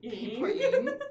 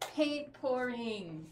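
First: It is said in a put-on Muppet voice. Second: It is said in her normal voice.

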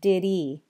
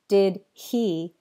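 First: The h sound at the start of he is dropped. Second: The h sound at the start of he is pronounced. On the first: "you end up hearing did he" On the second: "instead of hearing did he"

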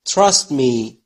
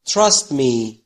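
No difference in how they are said.

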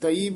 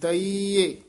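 First: The word ends in a plain ee sound. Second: The word ends with an added eh sound. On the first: The speaker calls it wrong. "ਦਈ ਬੋਲ ਕੇ ਨਾ" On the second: The speaker calls it right. "ਦਈਏ ਇਸ ਤਰ੍ਹਾਂ ਬੋਲਣਾ"

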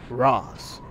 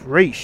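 First: The name is said with an 'ah' vowel. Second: The name is said with an 'ay' vowel. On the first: The speaker calls it wrong. "they pronounced it like that" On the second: The speaker calls it right. "It's Raish"

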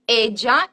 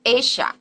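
First: The double L is not said as 'sh'. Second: The double L is said as 'sh'. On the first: "this ella" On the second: "in Argentina it will be pronounced esha"

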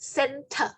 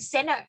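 First: The t is sounded; the final r is dropped. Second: The t after n is dropped; r is sounded. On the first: "แต่ถ้าคนอังกฤษจะไม่ออกเสียงตัว r เขาจะออกว่า" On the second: "ถ้าฐานเสียงเดียวกันเขาจะสกิปตัวที่สองก็เลยออกว่าเนอะกับเถอะก็คืออ่านเป็น"

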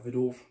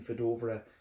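First: The name is said with Danish-style sounds. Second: The name is said with English-style sounds.

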